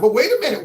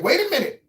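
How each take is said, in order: First: Said in the usual way. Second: "wait a minute" jumped up high in pitch; indignant, higher "wait a minute"; emphatic higher repeat. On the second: Real, not acted. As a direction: push "wait" up hard in protest. Host repeats himself to object.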